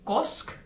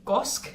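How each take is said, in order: First: The word is clipped, dropping the final vowel. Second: The same.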